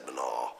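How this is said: The word is said with an N sound after M. This is how the speaker learned it at school. "where I would have said Manaw"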